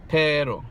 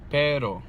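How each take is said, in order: First: The R is flapped but the P is breathy. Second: The same.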